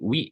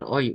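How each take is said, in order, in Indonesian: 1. Namanya diucapkan seperti 'wee'. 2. Namanya diucapkan seperti 'oy'. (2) "dibacanya bukan Oi"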